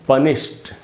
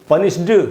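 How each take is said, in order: First: The word ends with a t sound. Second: The word ends with a d sound. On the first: The speaker calls it right. "यहाँ पर डी से ट बनेगा तो इसको हमको पढ़ना चाहिए" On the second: The speaker calls it wrong. "इसको हमको पनिश्ड नहीं पढ़ना चाहिए"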